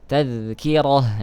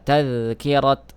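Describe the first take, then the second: First: The word ends with a soft h sound. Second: The word ends with a clear t sound. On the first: The speaker calls it right. "ta marbutah itu dibaca seperti huruf ha" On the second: The speaker calls it wrong. "Jadi tidak dibaca uh, tadhkirat"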